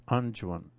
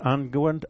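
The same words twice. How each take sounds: First: "unguent" said with a soft g, UN-junt; soft-g pronunciation. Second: "unguent" said with a hard g and w, UN-gwent; hard-g pronunciation. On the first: Preacher testing another pronunciation, "unguent" with soft g. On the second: Preacher unsure how it's pronounced, trying "unguent" with hard g. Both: Shown as a demonstration. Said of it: "Is that pronounced unguent or".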